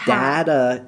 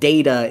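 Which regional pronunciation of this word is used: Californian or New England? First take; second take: New England; Californian. First: The word is pronounced the North New England way. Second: The word is pronounced the Californian way. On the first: "a little more like North New England area of way of pronouncing it" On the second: "very Californian"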